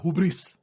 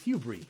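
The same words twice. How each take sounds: First: It is said with a Spanish-style pronunciation. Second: It is said with an English-style pronunciation. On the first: The speaker calls it wrong. "like my Spanish brain wants to say" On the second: The speaker calls it right. "It's hubris"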